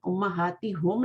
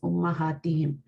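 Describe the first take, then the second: First: The final syllable has a u vowel: hum. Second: The final syllable has an i vowel: him. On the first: The speaker calls it wrong. "नहीं कर सकते, वो पढ़ने में मुश्किल होती है।" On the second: The speaker calls it right. "इस ज़ेर की वजह से हमने हुम को हिम में चेंज किया।"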